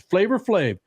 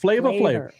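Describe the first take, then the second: First: The first word ends in an 'er' sound. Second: The first word ends in an 'ah' sound. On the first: The speaker calls it right. "It's Flavor Flav" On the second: The speaker calls it wrong. "It's not Flava Flav"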